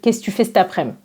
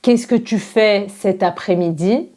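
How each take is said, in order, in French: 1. Certains sons disparaissent et les mots se collent. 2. Chaque mot est prononcé en entier et séparément. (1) "on va dire" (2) "Au lieu de dire"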